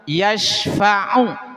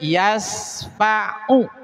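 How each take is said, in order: First: The middle consonant is an 'sh' sound. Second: The middle consonant is an 's' sound. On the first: No one can give intercession. The speaker calls it right. "yang seharusnya pakai shin besar" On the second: No one can give a slap. The speaker calls it wrong. "dibaca dengan sin kecil"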